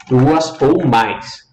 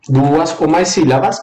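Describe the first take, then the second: First: "Duas ou mais" drawn out word by word; slow down and spell out "Duas ou mais"; slow emphasis. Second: Said in the usual way. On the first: Shown as a demonstration. ("Duas ou mais" bem devagar, palavra por palavra)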